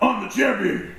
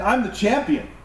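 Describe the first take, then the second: First: It is said in a loud pro-wrestler voice. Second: It is said in a plain speaking voice.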